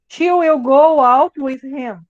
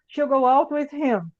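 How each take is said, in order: First: Will is said in full as a separate word. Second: Will is contracted onto she, said faster. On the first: "Aqui seria a mesma coisa" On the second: "Vai ficar she'll go out with him"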